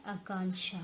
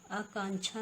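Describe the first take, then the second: First: आकांक्षा with sh, akanksha; a hushing sh in आकांक्षा; correct pronunciation. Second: आकांक्षा with chh, akanchha; wrong pronunciation. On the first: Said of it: "क्या होता है?". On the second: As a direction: put a ch sound in आकांक्षा. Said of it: "नहीं होता". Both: Shown as a demonstration.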